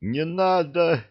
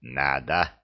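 First: High frightened cry of Не надо. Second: Low, smug Надо with a grin; gloating. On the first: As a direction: yelp Не надо in alarm, pitched high. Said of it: "испугался Нет". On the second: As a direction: growl Надо with a pleased grin. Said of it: "довольно осклабился Урукхай". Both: Acted.

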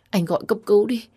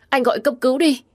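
First: High-pitched worried request; urgent plea. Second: Much higher, desperate urging; frantic plea. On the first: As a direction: plead urgently, still held in. Begging husband to call ambulance. (khẩn khoản, lo lắng) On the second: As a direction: plead harder, near a cry. Repeats plea with more desperation. (van nài cuống cuồng) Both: A narrator's reading.

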